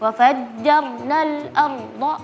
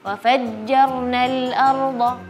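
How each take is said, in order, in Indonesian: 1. Terpotong-potong menjadi bagian-bagian dengan jeda. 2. Mengalir lembut tanpa jeda yang terputus-putus. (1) "seperti memotong-motong" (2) "lebih lebih soft lagi"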